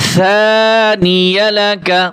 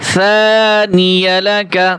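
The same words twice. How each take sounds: The two takes are said the same way.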